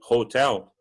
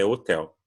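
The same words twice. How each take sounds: First: The word begins with an audible breathy h. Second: The word begins with the vowel, h silent. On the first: This is how it is said in the United States. "nos Estados Unidos o hotel ele soa-se hotel, tem um som parece que de um R ali, o som de H deles" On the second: This is how it is said in England. "na Inglaterra é hotel ... não vai ter o som de do H, vai ter só o som do O"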